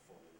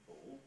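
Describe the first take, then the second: First: The pitch falls and ends low and level. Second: The pitch falls and then rises at the end. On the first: "which was a fall" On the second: "which was a fall rise"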